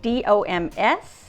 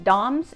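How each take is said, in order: First: Each letter is said separately. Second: It is said as a single word.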